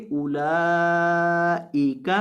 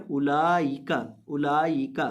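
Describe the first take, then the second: First: اولئک with a clear hamza kasra, ulaa-ika; correct pronunciation. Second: اولئک said oolayik with a ya sound; wrong اولئک, ی instead of hamza; common mispronunciation. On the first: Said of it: "اس کو پڑھیں گے اولئک". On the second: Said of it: "اکثر لوگ اس لفظ کو غلط پڑھتے ہیں". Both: Shown as a demonstration.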